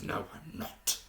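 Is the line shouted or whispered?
whispered. It is said in a hushed whisper. "almost like a whisper and almost like this very hushed tone"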